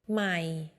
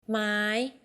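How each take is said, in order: First: The syllable is said on a low tone. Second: The syllable is said on a high tone. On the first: It means new. "low ใหม่ new" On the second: It means wood. "high ไม้ wood"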